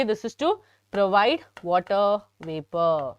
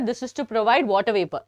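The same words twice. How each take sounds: First: Slower, every word spaced out for notes; slow dictation. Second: Said in the usual way. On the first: Shown as a demonstration. Teacher repeating slowly for students taking notes. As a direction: spell it out slowly so they can write.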